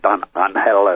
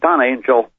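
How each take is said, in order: First: The name is said with Spanish-style sounds. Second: The name is said with English-style sounds. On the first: The speaker calls it right. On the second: The speaker calls it wrong.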